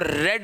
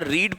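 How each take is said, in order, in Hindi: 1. यह शब्द छोटे 'e' स्वर के साथ बोला जाता है। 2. यह शब्द लंबे 'ee' स्वर के साथ बोला जाता है। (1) "रीड को रेड नहीं पढ़ूंगा" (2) "रीड पढ़ूंगा"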